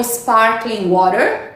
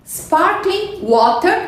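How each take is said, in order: First: Slow "sparkling water" with tapped T; "water" with final R, slowly; American pronunciation. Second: Slow "sparkling water" with crisp T; "water" as WAW-tuh, slowly; British pronunciation. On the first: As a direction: say "sparkling water" American style, WAH-der. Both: Shown as a demonstration. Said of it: "Pronúncias britânicas e americanas".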